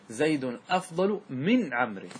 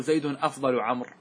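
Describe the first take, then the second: First: Slow, clear model sentence with من stressed. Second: Said in the usual way. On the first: Shown as a demonstration. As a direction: give من its full weight, slowly. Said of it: "بل يجب أن تدخل من". (نطق "من" بتشديد وتمهّل) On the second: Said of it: "فلا يجوز أن تقول".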